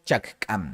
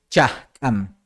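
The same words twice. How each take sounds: First: The middle consonant is a clear k sound. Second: The middle consonant is a breathy h-like sound. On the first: This follows the written form. "la escritura pues es más cerrada, por eso lo vemos aquí como chakam" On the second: This is how it is usually said in speech. "normalmente en la oralidad es chakam, como que esta primera K se convierte en una J"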